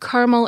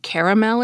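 First: The word is said with two syllables. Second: The word is said with three syllables. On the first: This is the pronunciation the usage guide ranks worst. The speaker calls it wrong. "and caramel is worst" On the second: This is the pronunciation the usage guide ranks best. The speaker calls it right. "saying caramel is best"

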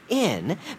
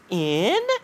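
First: The voice stays level on the word. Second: The voice rises on the word.

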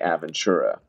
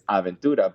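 First: It is said with an English accent. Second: It is said with a Spanish accent.

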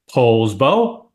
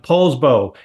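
First: The name is said with a marked local inflection. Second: The name is said in a plain, ordinary way.

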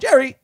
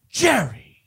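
First: The name is said short and plainly. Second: The name is drawn out and exclaimed. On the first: This is not how the character says it. The speaker calls it wrong. "It's not like" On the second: This is how the character says it. The speaker calls it right. "like it would be like"

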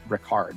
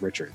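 First: The name is pronounced the German way. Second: The name is pronounced the English way. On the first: "in Germany, he's Richard" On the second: "not Richard"

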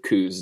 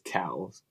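First: The vowel sounds like 'oo' in 'coos'. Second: The vowel sounds like 'ow' in 'cows'. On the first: The speaker calls it wrong. "that's going to go to the coos deer" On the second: The speaker calls it right. "which I guess Tim says cows"

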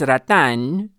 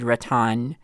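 First: The word has a Tagalog pronunciation. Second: The word blends Filipino and American pronunciations. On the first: "in Tagalog, it's rattan" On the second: "a compromise where I said rattan ... a mid-Filipino-American accent"

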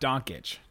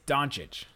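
First: The middle has a K sound. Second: The middle has no K sound. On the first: The speaker calls it wrong. "not Donkic. There's no K sound" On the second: The speaker calls it right. "It is Doncic"

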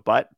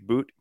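First: The vowel is a short 'uh' sound. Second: The vowel is a long 'oo' sound. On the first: This is the English reading of the spelling. "so Butt" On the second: This is the Russian pronunciation of the name. "I think it's Boot with the Russian accent"

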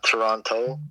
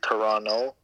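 First: The second T sound is pronounced. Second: The second T sound is dropped. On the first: The speaker is a visitor to the city. The speaker calls it wrong. "not Toronto" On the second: The speaker is from the city. The speaker calls it right. "no one in Toronto says the second T"

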